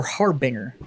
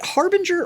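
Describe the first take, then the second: First: Harbinger as "HAR-bing-er", no j sound; hard pronunciation. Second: Harbinger with a soft g, as in "HAR-bin-jer"; soft-g pronunciation. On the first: Friend checking a brand name, Harbinger said as HAR-bing-er. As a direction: rhyme the end of Harbinger with "singer". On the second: Friend checking a brand name, Harbinger said with a j sound. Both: Shown as a demonstration. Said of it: "is it Harbinger or Harbinger".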